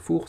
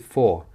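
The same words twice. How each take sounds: First: It is said like the French word four. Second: It is said with an English pronunciation. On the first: The speaker calls it wrong. "comme en français un four" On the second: The speaker calls it right. "c'est four"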